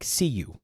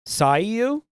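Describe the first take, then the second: First: The first syllable sounds like "see". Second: The first syllable sounds like "say". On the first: "or like see you?" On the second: "Sayu or"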